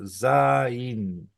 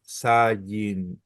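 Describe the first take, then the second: First: Zain as one syllable, zain, with no y glide; correct reading. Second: Zayin drawn out slowly as three syllables, za-yin; wrong reading. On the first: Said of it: "es Zain". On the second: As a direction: say Zayin slowly, with the extra y glide, as the mistake. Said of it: "no es Zayin". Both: Shown as a demonstration.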